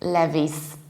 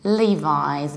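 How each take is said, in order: First: It starts with a short 'leh' sound. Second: It starts with a long 'lee' sound. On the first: The speaker calls it wrong. "In Polish, people pronounce it like Levis" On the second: The speaker calls it right. "we pronounce it like Levi's"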